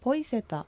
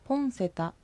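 First: Said fast with a y sound before seta. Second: Said carefully with the n before seta. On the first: "早く発音されてポイセタという形になります" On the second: "この小さい犬という表現のポンセタ"

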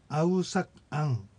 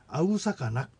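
First: The words are said separately with breaks. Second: The words run together into one form. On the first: "ヤッって区切ったらそうなるんですけども" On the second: "これが続けられてアウサカナクと、発音されます"

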